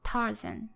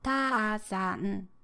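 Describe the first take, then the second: First: Tarzan with a strong, long first syllable and a weak, short second; English stress rhythm. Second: Tarzan in four equal beats, ta-a-za-n; drawn-out Japanese Tarzan, every mora equally timed and stressed; Japanese mora rhythm. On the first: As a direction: stress TAR, let zan drop short in Tarzan. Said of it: "up and down rhythm". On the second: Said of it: "equal amount of time and stress to each letter". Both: Shown as a demonstration.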